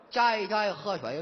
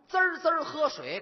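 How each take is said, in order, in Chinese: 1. 字音含糊，像舌头打了结。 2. 每个字都咬得清清楚楚。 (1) "大舌头、说这麻烦了。" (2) "就得这么清楚，每个字都得送到您耳朵里边"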